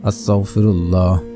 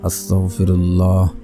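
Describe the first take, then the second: Both takes have the same delivery.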